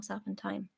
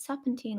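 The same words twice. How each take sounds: First: "serpentine" said as "serpen-tyne"; pronunciation ending "tine". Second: Put-on "serpentine" said as "serpen-teen"; pronunciation ending "teen". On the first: Reader asks listeners which is correct, "serpentine" ending like "tine". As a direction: softly try "serpentine" to rhyme with "sign". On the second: Reader asks listeners which is correct, "serpentine" ending like "teen". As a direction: softly try "serpentine" to rhyme with "seen". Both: Shown as a demonstration. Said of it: "is it serpentine or serpentine".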